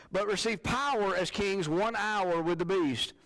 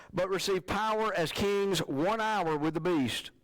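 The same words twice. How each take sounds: No difference in how they are said.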